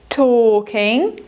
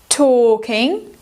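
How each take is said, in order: No difference in how they are said.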